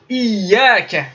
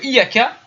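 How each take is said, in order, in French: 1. Le son y est tenu et doublé. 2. Le son y est bref et simple. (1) "il faut faire attention à bien marquer la shadda sur le ya" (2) "on va viser une divinité solaire"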